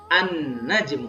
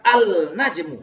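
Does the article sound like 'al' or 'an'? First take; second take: an; al. First: The l merges into a doubled n sound. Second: The article is said with a clear l sound. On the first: The speaker calls it right. "Tapi membacanya an-najmu" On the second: The speaker calls it wrong. "tidak dibaca al-najmu. Tidak begitu bacanya"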